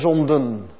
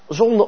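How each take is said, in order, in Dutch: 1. Het woord eindigt met een duidelijke laatste n-klank. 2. Het woord eindigt zonder laatste n-klank. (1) "in het noorden des lands wel zo kenmerkend wordt uitgesproken" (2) "dat ene ennetje dat wij als westelingen niet uitspreken"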